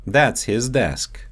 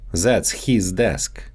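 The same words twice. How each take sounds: First: Said in the usual way. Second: His said as "heez" with a long ee, Russian style; Russian-accented "his" stretched to heez; his desk with a Russian long ee in "his". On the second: Shown as a demonstration. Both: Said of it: "so they often get mixed up in English".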